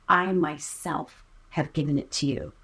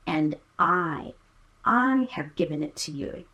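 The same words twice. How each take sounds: First: "I myself" leaned on as the point of the sentence; stress on I myself. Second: Said in the usual way. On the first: Shown as a demonstration. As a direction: hit "I myself", let the rest fall away. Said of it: "it's more proper to say". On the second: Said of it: "The clause would literally say".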